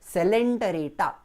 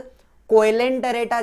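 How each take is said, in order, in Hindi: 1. शब्द s ध्वनि से शुरू होता है। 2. शब्द k ध्वनि से शुरू होता है। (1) "लेकिन हम प्रोनाउंस कैसे करेंगे?" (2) "उसका स्पेलिंग कोएलेंटरेटा जैसा दिखता है"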